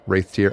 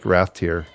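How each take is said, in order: First: The first syllable sounds like 'wraith'. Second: The first syllable sounds like 'wrath'. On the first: The speaker calls it right. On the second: The speaker calls it wrong.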